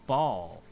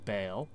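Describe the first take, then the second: First: The name rhymes with ball. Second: The name rhymes with bale. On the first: "I always pronounced it ball" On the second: "But it could be bale"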